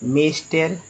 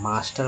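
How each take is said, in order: First: The first vowel sounds like 'ay'. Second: The first vowel sounds like 'aa'. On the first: The speaker calls it wrong. "अगर सभी जगह ए को ए ही उच्चारण करेंगे" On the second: The speaker calls it right. "मास्टर में आ आ गया"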